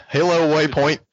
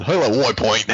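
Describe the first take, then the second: First: Said in the usual way. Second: Put-on "Boy Point" with way turned into woy; joking "Boy Point" in place of Waypoint; deliberate mispronunciation. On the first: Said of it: "That's how I'm gonna say it". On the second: Shown as a demonstration. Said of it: "how I'm gonna say it from now on".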